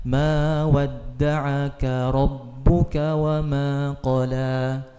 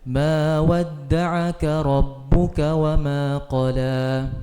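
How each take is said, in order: Both takes have the same delivery.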